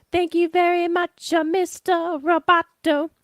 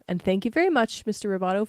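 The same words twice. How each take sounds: First: Singing it high and bright; sung lyric. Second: Said in the usual way. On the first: Acted. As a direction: sing it like the song.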